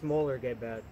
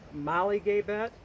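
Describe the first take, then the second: First: The first part sounds like 'Moeller'. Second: The first part sounds like 'Molly'. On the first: This is how a speaker of the language says it. "a person that actually speaks the language say it's Moeller-Gabet" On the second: This is how some people say it. "Some people pronounce it Molly-Gabet"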